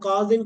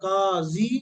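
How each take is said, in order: First: The word ends with an n sound. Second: The word ends with a long i vowel. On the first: The word is indefinite and read on without stopping. "तनवीन पढ़ना लाज़मी है" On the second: The word is definite or read with a stop after it. "तो फिर या पढ़ सकते हैं, फिर तनवीन नहीं पढ़ेंगे"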